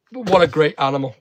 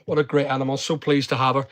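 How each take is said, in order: First: Said in the usual way. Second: Tender. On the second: Real, not acted.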